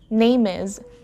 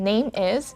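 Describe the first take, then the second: First: The M sound runs into the next word. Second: The two words are said separately. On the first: "I blended the sound from name, the M sound there, and the first sound in is" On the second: "instead of saying name is"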